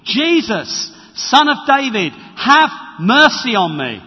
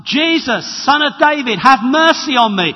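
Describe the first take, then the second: First: Loud, pleading call to Jesus; crying out for mercy. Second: High, loud desperate cry; crying out for mercy. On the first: Blind beggar calling to Jesus over the crowd, a loud plea. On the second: Blind beggar shouting to Jesus through the crowd, a high loud plea. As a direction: shout it over the noise, pleading. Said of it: "And a voice comes". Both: Acted.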